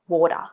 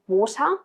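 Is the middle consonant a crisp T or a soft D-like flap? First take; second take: D-like flap; crisp T. First: The middle consonant is a soft D-like flap. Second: The middle consonant is a crisp T.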